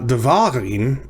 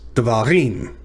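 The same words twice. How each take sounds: First: The stress is on the middle syllable. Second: The stress is on the last syllable. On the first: The speaker calls it wrong. "and it's not devarim" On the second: The speaker calls it right. "it's devarim. So the emphasis is on the last syllable"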